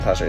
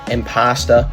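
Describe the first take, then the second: First: It is said with the ordinary imposter vowel. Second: It is said with an open 'pasta' vowel. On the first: "He's not saying imposter" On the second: "it's impasta"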